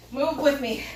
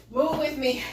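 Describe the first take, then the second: No difference in how they are said.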